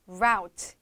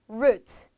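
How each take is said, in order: First: It is said with an American accent. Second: It is said with a British accent.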